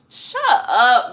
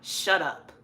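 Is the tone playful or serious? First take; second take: playful; serious. First: It is said in a light, joking tone. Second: It is said in a harsh, serious tone. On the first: The speaker is teasing a friend. "not shut up like, shut up, girl" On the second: The speaker really wants the other person to stop talking. "Shut up like, for real"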